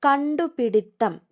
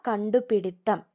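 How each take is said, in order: First: കണ്ടുപിടിത്തം slower and a bit higher; announced word. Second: Said in the usual way. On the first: Shown as a demonstration. Teacher announcing the spelling word, slowed. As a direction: call out കണ്ടുപിടിത്തം slowly and clearly. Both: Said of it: "കണ്ടുപിടുത്തമല്ല".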